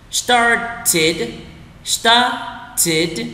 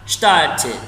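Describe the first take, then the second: First: Started broken into two separate syllables; slow word-by-word. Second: Said in the usual way. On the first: Shown as a demonstration. Teacher leads learners through the word, slowly split. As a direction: draw out started, pausing before the last syllable. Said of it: "đọc chậm từng từ một".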